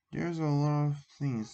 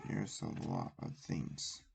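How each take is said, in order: First: Said in the usual way. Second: Breathy whisper, no voice. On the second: Acted. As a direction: whisper it to yourself. Same line whispered then repeated.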